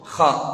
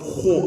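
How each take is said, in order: First: The vowel is open like a. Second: The vowel is rounded like o. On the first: The speaker calls it right. "cukup kha" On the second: The speaker calls it wrong. "Ho enggak"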